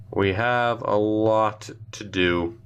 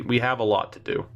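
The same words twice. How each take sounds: First: Slow, drawn out, word by word; weighty, deliberate restatement; slow emphatic repeat. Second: Said in the usual way. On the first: Real, not acted. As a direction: stretch it out to let it sink in. Repeats himself slowly for emphasis.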